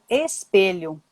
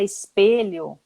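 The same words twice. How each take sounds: First: The word begins with a clear E vowel sound. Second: The word begins with an I-like vowel sound. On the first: This matches how the word is written. "mas se escreve espelho, com E" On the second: This is how people usually say it. "a gente fala espelho"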